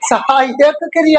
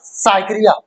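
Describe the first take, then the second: First: Both words are pronounced fully and separately. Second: The phrase is squeezed into one clipped word. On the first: It is understood as a verb that helps. The speaker calls it right. "सहायक क्रिया होती है" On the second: It was memorized by rote without understanding. The speaker calls it wrong. "अरे रट्टा तो मारा होगा"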